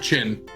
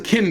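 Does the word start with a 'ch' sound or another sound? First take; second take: ch; another sound. First: The word starts with a 'ch' sound. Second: The word starts without a 'ch' sound. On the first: The speaker calls it wrong. "not Qin. You don't say it as Ch at all" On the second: The speaker calls it right. "That's the Qin dynasty"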